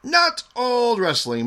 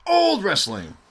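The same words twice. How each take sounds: First: Not punched high and slow, falling; stress on Not. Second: Put-on old said high with a falling tune; stress on old. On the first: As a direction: hit Not hard to correct. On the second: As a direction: lean on old as a joke. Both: Shown as a demonstration. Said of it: "Newish wrestling".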